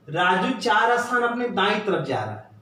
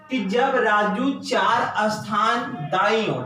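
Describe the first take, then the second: First: Said in the usual way. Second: Slow, deliberate reading of the question. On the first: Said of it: "कह रहा है कि". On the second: Shown as a demonstration. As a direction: lay each word out for students. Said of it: "यहां से कह रहा है". (धीमी, ठहरकर प्रश्न पढ़ना)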